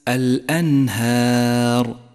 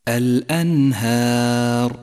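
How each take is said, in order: The two takes are said the same way.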